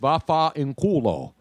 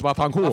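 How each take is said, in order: First: It is said slowly and fully. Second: It is said quickly and run together.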